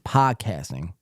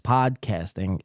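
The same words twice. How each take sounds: First: The D sound is left out. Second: The D sound is pronounced clearly.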